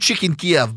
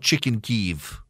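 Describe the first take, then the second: First: Kiev is said with the Russian-style pronunciation. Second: Kiev is said with the Ukrainian-style pronunciation. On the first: The speaker calls it right. "so we'll do chicken Kiev" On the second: The speaker calls it wrong. "That doesn't sound right"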